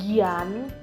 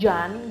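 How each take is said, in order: First: It is two syllables, sounding like 'jee-an'. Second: It is one syllable, sounding like 'jan'. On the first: The speaker calls it wrong. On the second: The speaker calls it right.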